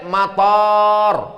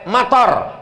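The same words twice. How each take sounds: First: The first vowel is long. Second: The first vowel is short. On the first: It means airport. "Tapi kalau pakai alif" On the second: It means rain.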